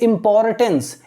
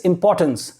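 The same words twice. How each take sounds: First: The R sound is pronounced in the word. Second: The R sound is silent in the word. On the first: The speaker calls it wrong. "you don't have to say importance" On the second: The speaker calls it right. "R is silent over here"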